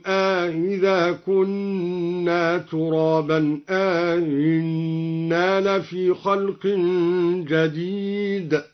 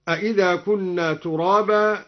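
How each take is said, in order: First: "أإذا" and "أإنا" with a long aa, then a softened hamza; slow recitation, easing the second hamza of "أإذا" and "أإنا" after an inserted alif. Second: Said in the usual way. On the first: Shown as a demonstration. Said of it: "بتسهيل الهمزة في الموضعين مع إدخال". (تسهيل الهمزة الثانية في "أإذا" و"أإنا" مع إدخال ألف) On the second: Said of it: "قرأ الدوري بتسهيل الهمزة".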